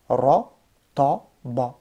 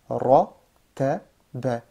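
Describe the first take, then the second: First: All three syllables sound heavy and dark. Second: Only the first syllable sounds heavy and dark. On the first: The speaker calls it wrong. "je te lis tout lourd" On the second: The speaker calls it right. "je fais lourd ici, lourd, et là après c'est léger"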